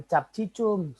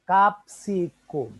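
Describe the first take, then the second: First: "cicum" with ch sounds, as spelled; wrong Latin reading. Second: "Capsicum" as kap-si-kum, slow and higher; correct Latin reading. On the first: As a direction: say "cap cicum" with Indonesian ch for each c. (baca "cicum" dengan bunyi c Indonesia) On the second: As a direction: model "Capsicum" slowly with s, then k. (ucapkan "Capsicum" pelan sebagai kap-si-kum) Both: Shown as a demonstration. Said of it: "bukan begitu bacanya".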